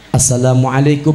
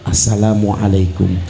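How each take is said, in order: First: The greeting is said at normal volume. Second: The greeting is said very quietly.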